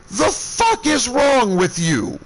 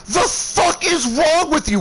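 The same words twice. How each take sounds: First: Slow, high, deliberate fury; seething slowed-down yell; drawn-out angry demand. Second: Quick, high shouted outburst; enraged snap, pitched way up; furious yell. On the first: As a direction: drag out each word in disgust. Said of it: "I am so pissed". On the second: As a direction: spit it out at him in rage. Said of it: "I am livid". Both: Retold or imitated.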